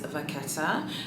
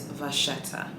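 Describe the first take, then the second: First: The word is pronounced the Italian way. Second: The word is pronounced the French way. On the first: "the Italian way to say the word is" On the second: "the French way to say it is"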